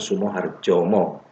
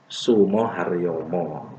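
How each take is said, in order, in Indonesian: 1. Konsonan di tengah adalah bunyi J. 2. Konsonan di tengah adalah bunyi Y. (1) "tapi diucapkan Sumoharjomo" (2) "Padahal harusnya pengucapan itu Sumoharyomo"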